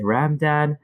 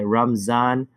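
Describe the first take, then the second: First: It sounds like ramen with a plain d. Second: The middle consonant is a z sound. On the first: "like ramen noodles" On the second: "calls it Ramzan with a Z"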